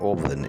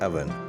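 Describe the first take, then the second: First: The first vowel is an 'o' sound. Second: The first vowel is an 'a' sound. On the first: The speaker calls it wrong. "it is not oven" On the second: The speaker calls it right. "with an a sound"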